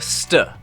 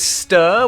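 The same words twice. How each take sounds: First: The vowel is squashed into a weak sound. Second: The vowel is full and clearly pronounced. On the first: "which gets squashed down to stir" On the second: "The second is stir"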